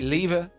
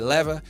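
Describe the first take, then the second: First: The word has a British pronunciation. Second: The word has an American pronunciation. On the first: "British people, we see we say lever" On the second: "American people say lever"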